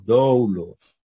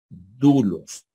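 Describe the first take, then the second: First: The first vowel is 'oh' gliding into 'oo'. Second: The first vowel is a single 'oo' sound. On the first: "Debería haber dicho doulos" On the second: "¿por qué dijo dulos si aquí hay una O?"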